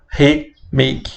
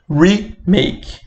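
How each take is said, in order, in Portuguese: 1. O prefixo é falado com som de português. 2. O prefixo é falado com som de inglês. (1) "não vão falar remake" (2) "é remake"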